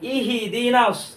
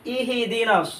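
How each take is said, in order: Both takes have the same delivery.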